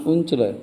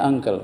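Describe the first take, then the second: First: "uncle" read as written, "oon-chlay"; spelling pronunciation. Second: Said in the usual way. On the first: Shown as a demonstration. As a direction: sound out "uncle" as "un-chleh". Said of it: "Uncle tulisannya uncle". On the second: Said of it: "bacanya uncle".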